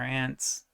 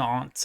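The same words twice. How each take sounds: First: It is said in plain American English. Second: It is said in a fancy, posh way.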